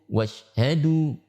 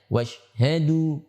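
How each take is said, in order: First: The sh sound is short with little breath. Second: The sh sound is short with little breath.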